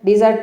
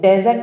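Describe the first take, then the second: First: The first syllable has a 'di' vowel. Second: The first syllable has a 'de' vowel. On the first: The speaker calls it right. "డిజర్ట్ అని పలకాలి" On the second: The speaker calls it wrong. "డెజర్ట్ అనేది అది wrong"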